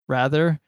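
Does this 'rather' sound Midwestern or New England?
Midwestern. It is pronounced in a Midwestern way.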